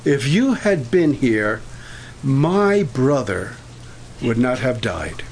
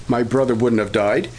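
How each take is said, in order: First: "my" drawn out and slow, leaning on it; slow "If you had been here, my brother" with weight on "my"; stress on my. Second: "brother" lifted and leaned on; stress on brother. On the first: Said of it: "Martha emphasized the word my". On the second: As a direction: land the weight on "brother". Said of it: "she emphasized brother". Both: Shown as a demonstration.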